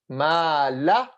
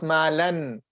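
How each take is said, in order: First: The phrase ends without an n sound. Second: The phrase ends with an n sound. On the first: The speaker calls it right. "We drop the tanween, so no noon" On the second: The speaker calls it wrong. "Not ma lan"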